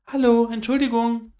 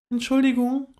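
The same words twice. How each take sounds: First: Louder and higher, calling up to the trees; a little squirrel raising its voice to be heard; etwas lauter. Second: Polite, high little squirrel voice; a small creature asking politely; höflich. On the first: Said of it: "mit etwas lauterer Stimme". (etwas lauter rufend) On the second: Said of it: "sagte sie höflich". (höflich, hohe Eichhörnchenstimme) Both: A narrator's reading.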